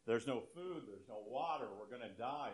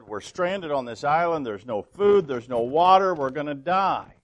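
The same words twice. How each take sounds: First: Hushed, worried repeating to himself; a stranded man frets under his breath, much softer; agitated muttering. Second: Higher, louder, panicked mock rant; hammed-up yelling right in his friend's face. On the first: Retold or imitated. Stranded man repeating his fears, hushed and anxious. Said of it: "more and more worked up and agitated". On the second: Stranded man yells his fears at his calm friend, higher and louder. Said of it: "got right in his face and said".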